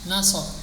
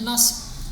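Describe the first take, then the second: First: A vowel is inserted between the final consonants. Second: It ends in two consonants with no vowel. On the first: "Nasbun jadi nasab"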